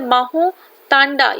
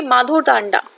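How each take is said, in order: First: "माहो तांडा" with a plain h sound and no d in the middle; "माहो तांडा", said as maho tanda before she corrects it; misread place name. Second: "माधो Tanda", restated firmly as the fix; corrected "माधो Tanda", dh sound put back; corrected place name. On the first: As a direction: slip of the tongue on "माहो तांडा". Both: Shown as a demonstration.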